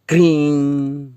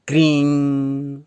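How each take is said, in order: The two takes are said the same way.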